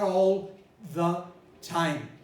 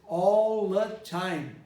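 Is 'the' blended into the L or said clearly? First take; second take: clear; blended. First: The 'the' is pronounced fully and clearly. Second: The 'the' blends into the preceding L sound. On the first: The speaker calls it wrong. "not all the time" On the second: The speaker calls it right. "All the time is all the time"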